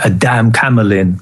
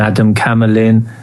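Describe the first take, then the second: First: The opening syllables are clearly separated into two words. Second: The opening syllables run together as one word. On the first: It sounds like the phrase a damn. The speaker calls it right. "I should have said it like a damn Camelin" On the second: It sounds like the name Adam. The speaker calls it wrong. "I actually mispronounced, not mispronounced it, but I didn't put the"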